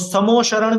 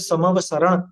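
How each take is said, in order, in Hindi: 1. दूसरे अक्षर में 'o' स्वर है। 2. दूसरे अक्षर में 'ava' क्रम है। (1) "समो शरण भी नहीं होता, ओ की मात्रा नहीं होती" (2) "मूल शब्द है समव शरण"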